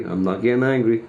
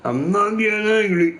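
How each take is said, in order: First: Said in the usual way. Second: Denial pitched higher; mock protest. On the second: Real, not acted. Streamer insisting he's calm, pitched higher. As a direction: protest too much, sarcastically.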